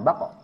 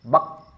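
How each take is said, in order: First: A short vowel is released after the end. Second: It ends abruptly on a pressed closure. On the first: The speaker calls it wrong. "Bukan bako" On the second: The speaker calls it right. "Sebelum dikolkolahkan"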